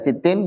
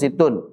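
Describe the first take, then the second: First: The word ends with an 'in' sound. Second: The word ends with an 'un' sound. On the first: The number is grammatically tied to the preceding noun. "Kemudian kita ambil yang kasrah" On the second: The number is the predicate of an omitted subject. "sittun dengan dhammatain"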